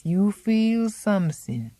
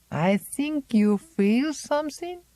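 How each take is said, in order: First: "feel" falling, slow and certain; firm statement. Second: High, slow probing rise on "feel"; probing question. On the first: Old Zélie insisting to Miranda, falling and certain. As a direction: set "feel" down as a flat fact. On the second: Old Zélie questioning Miranda, high rising and knowing. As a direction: lift "feel" into a knowing question, much higher. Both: Acted.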